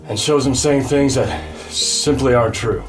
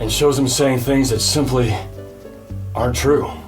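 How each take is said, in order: First: The phrase runs on without a pause after simply. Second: There is a pause right after simply. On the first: The speaker calls it wrong. "Oh, that was messed up" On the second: The speaker calls it right. "I gotta pause after simply"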